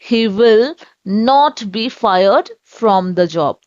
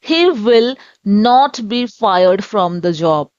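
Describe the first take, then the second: The two takes are said the same way.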